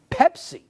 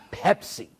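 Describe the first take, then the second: First: Much higher-pitched disbelieving PEPSI; incredulous repeat. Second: Said in the usual way. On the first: Acted. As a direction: say "Pepsi" high, as if you can't believe it. Repeats name one would never believe.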